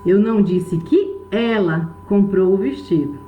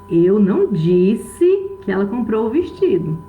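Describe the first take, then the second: First: The stress falls on the word ela. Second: The stress falls on the word disse. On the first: Someone else bought it, not her. "Pode ter sido outra pessoa que comprou, mas ela não" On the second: It was not said aloud, only thought or written. "Eu posso ter pensado, posso ter escrito, mas eu não falei"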